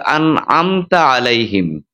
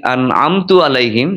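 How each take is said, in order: First: আনআমতা আলাইহিম slowly, ending তা with an a vowel; correct recitation. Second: আনআমতু আলাইহিম slowly, ending তু with a u vowel; wrong vowel demo. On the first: Imam modelling আনআমতা with the a vowel, slowly. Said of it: "জবরের জায়গায় একটা পেশ". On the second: Imam showing the mistaken আনআমতু with u. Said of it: "জবরের জায়গায় একটা পেশ যদি আমরা উল্লেখ করি". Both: Shown as a demonstration.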